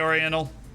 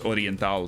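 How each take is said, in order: First: It is said with an American English pronunciation. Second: It is said with a Spanish pronunciation. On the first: "I think I'll stick with the, the American pronunciation" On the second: "like in Spanish"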